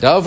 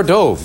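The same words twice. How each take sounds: First: "Dove" with the short vowel of "love"; bird pronunciation. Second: "dove" with a long O, as in "stove"; past-tense pronunciation. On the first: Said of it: "Pronounced one way, it's a bird". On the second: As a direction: say "dove" as in jumped in, rhyming with "stove". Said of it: "Pronounced another way, it means jumped". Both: Shown as a demonstration.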